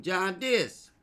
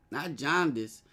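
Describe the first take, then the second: First: John Dis with a clipped Brooklyn twang, higher and louder; a mock New York drawl on John Dis; East Coast accent. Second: Said in the usual way. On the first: Shown as a demonstration. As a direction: say it like someone from Brooklyn. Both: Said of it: "that was that East Coast shit".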